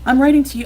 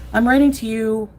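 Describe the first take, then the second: First: It is read in a plain, ordinary way. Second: It is read in an exaggerated, dramatic way.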